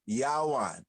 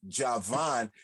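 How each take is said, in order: First: The middle consonant is a W sound. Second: The middle consonant is a V sound. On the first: The speaker calls it right. "It'll be Yawan" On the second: The speaker calls it wrong. "it wouldn't be Javan"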